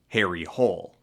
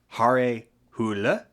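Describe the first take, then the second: First: The name is pronounced with English vowels. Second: The name is pronounced with Norwegian vowels. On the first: "instead to just anglicize it to Harry Hole" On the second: "In Norwegian, the character's name would be pronounced closer to Hare Hule"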